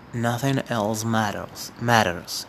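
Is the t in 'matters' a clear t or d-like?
d-like. It is said in an American accent, t like d.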